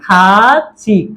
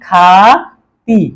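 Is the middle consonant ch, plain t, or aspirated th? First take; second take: ch; t. First: The middle consonant sounds like a ch. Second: The middle consonant sounds like a plain t. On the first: The speaker calls it right. "উচ্চারণটা হবে কিসের মতো? সিউতের মতো।" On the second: The speaker calls it wrong. "নিচে বসানোর কারণে ত এর মতো উচ্চারণ করি"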